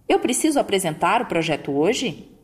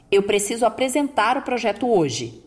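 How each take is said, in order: First: Rising at start and end like a question; question tune. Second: Flat, firm ending on hoje; firm statement. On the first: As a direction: ask it, lift the start and the end. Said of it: "Veja essa pergunta". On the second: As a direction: state it firmly, no rise on hoje. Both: Shown as a demonstration.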